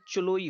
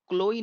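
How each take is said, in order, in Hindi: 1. नाम की शुरुआत "ch" ध्वनि से होती है। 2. नाम की शुरुआत "k" ध्वनि से होती है। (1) "होगा" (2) "नहीं होगा"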